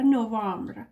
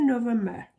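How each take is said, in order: First: "نوامبر" as no-vambr, ending in a cluster; alternative pronunciation. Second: "نوامبر" as no-vem-ber; alternative pronunciation. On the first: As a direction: say "نوامبر" with open a and no final -ber. («نوامبر» با تلفظ نُوامبر) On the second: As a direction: say "نوامبر" with a full -ber ending. («نوامبر» با تلفظ نُوِمبِر) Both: Shown as a demonstration.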